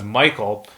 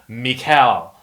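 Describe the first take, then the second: First: The name is said the common English way. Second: The name is said in a Russian-style form. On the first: This is how most people address him. "many people will already address him as Michael" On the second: This is how the speaker personally says it. "I've always pronounced it Mikhail"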